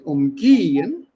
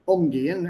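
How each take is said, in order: First: The stress is on the second syllable. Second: The stress is on the first syllable. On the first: It means to ignore someone. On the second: It means to deal with someone.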